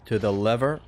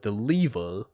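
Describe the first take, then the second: First: Lever is said in a non-British accent. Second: Lever is said in a British accent.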